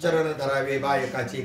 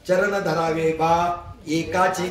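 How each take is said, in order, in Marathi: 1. शेवटचे शब्द कोणत्याही विरामाशिवाय एकमेकांना जोडून म्हटले जातात. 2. 'baa' आणि 'ekaache' यांच्यामध्ये विराम आहे. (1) "मग ते वाचताना असे वाचतात" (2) "बा स्वल्पविराम एकाचे"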